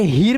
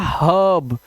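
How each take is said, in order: First: The vowel sounds like a long 'ee'. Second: The vowel sounds like a short 'uh'. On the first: The speaker calls it wrong. "हीर नहीं पढ़ना है" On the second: The speaker calls it right. "आ करने से ये हो जाएगा हब"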